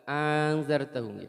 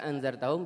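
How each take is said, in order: First: The second glottal stop becomes a long vowel. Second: Both glottal stops are clearly pronounced. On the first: "ibdali saniyah" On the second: "bisa dibaca tahqiq"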